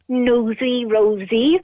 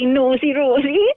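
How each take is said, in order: First: It is said with standard vowels. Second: It is said with Welsh-accented O vowels.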